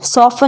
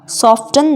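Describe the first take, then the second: First: The word is said without a t sound. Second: The word is said with a t sound. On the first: The speaker calls it right. "सॉफन means कोमल होना" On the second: The speaker calls it wrong. "सॉफ्टन नहीं पढ़ना है"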